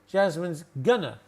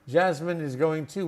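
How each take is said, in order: First: The words are contracted and reduced together. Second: Every word is said fully, without contraction. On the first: "that's the contraction. ... We reduce that, gonna" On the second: "That takes so long"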